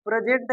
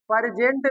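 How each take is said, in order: First: प्रेजेंट said "pre-jent", with a tight p-r cluster and no extra vowel; correct way to say present. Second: प्रेजेंट said "pur-jent", with an extra vowel between p and r; प्रेजेंट as "pur-jent", the mistake to avoid; wrong way to say present. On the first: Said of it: "प्रेजेंट ऐसे". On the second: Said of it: "प्रेजेंट नहीं". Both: Shown as a demonstration.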